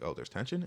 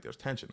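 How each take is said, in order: First: TENSION lifted into a question; questioning echo. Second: Higher, softer statement; matter-of-fact retold claim. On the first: Retold or imitated. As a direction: echo it back, rising on "tension". Echoes her words as a question. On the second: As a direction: state it lightly in her voice, as retold. Retelling her statement, then echoed.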